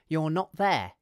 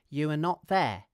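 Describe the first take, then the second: First: 'You are' is contracted into one syllable. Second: 'You are' is said as two full words.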